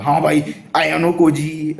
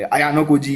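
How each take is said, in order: First: अयानो कोजी stumbled out slowly and higher, said badly; botched name. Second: अयानो कोजी said again cleanly at a normal pace; corrected name. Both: Real, not acted. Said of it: "बहुत गंदी तरीके से बोला मैंने".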